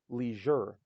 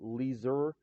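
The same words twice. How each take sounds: First: The middle consonant is a zh sound. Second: The middle consonant is not a zh sound. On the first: The speaker calls it right. "it's leisure. That's the zh sound" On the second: The speaker calls it wrong. "or leisure"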